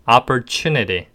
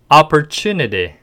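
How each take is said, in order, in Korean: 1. 묵직하고 부드러운 미국식 억양으로 발음합니다. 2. 묵직하고 부드러운 미국식 억양으로 발음합니다.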